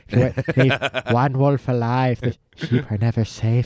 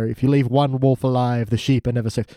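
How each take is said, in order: First: It is said in a Salad Fingers impression voice. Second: It is said in the speaker's normal voice.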